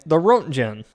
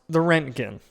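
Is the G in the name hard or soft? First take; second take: soft; hard. First: The G in the name sounds soft. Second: The G in the name sounds hard. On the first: The speaker calls it wrong. "I've been calling it" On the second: The speaker calls it right. "with the hard G"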